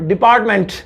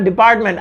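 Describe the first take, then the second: First: The final t sound is clearly pronounced. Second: The final t sound is left off. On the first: The speaker calls it right. "ये होता है सही तरीका English बोलने का" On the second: The speaker calls it wrong. "तो पहले मैं क्या बोल रहा था"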